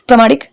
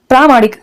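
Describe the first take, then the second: First: It is said in a loose, casual way. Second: It is said in a sharp, forceful way. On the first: This is how it is said in everyday speech. The speaker calls it wrong. "यही गलत है" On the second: This is the correct form of the word. The speaker calls it right. "ये तेज से बोला जाएगा"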